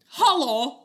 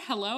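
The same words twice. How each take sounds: First: Hello is said in a Russian-sounding accent. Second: Hello is said in a plain, ordinary accent. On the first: The person answering is very nervous. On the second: The person calling out is unsure if anyone is there.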